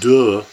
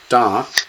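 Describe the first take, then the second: First: The vowel is a short reduced 'uh'. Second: The vowel is a full open 'ah'. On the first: The speaker calls it wrong. "Not duh" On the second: The speaker calls it right. "but da"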